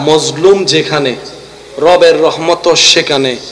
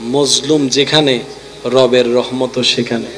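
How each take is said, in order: First: It is said more loudly. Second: It is said at normal volume.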